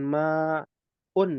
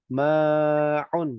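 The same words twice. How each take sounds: First: MA'UN with a plain glottal vowel instead of the ain; long MA, then a simple UN with no throat squeeze; MA'UN without ain. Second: MA'UN with a clear throaty ain opening the second syllable; correct ain in MA'UN. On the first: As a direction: demonstrate MA'UN mispronounced, missing its Arabic ain. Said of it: "bukan ma'un". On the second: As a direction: stretch the MA, then squeeze the throat for 'UN. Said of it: "pakai ain". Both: Shown as a demonstration.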